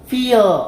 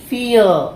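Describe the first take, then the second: The two takes are said the same way.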